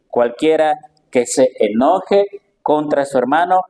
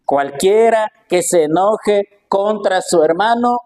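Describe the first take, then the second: First: The word enoje pushed up with a rising tune; stress on enoje. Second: Slow, raised, weighty reading of the verse; slow solemn scripture reading. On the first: Preacher explaining the verse, leaning on enoje. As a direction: lean on enoje and lift it. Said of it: "Aquí el Señor no dice". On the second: Preacher reading the verse to the congregation, slow and solemn. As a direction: read it slowly, each word weighed. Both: Shown as a demonstration.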